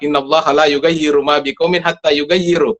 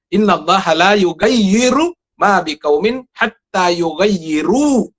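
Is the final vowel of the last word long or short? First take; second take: short; long. First: The last word ends with a short vowel. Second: The last word ends with a long vowel. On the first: Both verbs are read as if they were the same. The speaker calls it wrong. "kalau membacanya itu sama" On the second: The second verb refers to people, in the plural. The speaker calls it right. "itu berbeda"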